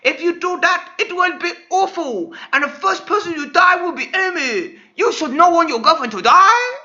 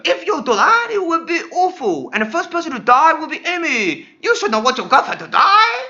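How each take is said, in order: First: High, loud warning doctor; doctor warning Sonic, high and loud. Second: High, loud doctor warning again; doctor warns Sonic a second time, high and loud; doctor warning, retake. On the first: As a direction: warn Sonic gravely in a high voice. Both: Acted. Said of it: "said the doctor".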